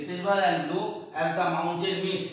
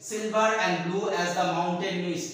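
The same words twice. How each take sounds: First: Repeated line read slowly again; slow poem reading. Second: Drawn-out reading of the line, each word spaced; slow poem recitation. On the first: Teacher repeating the simile line for students, slow recitation. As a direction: read it out once more, unhurried. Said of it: "এটা কিন্তু simile". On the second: Teacher reading a simile line aloud to students, slow recitation. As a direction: read the verse slowly to the class. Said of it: "simile". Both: Shown as a demonstration.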